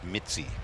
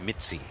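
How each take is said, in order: First: The middle consonant sounds like 'ts'. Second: The same.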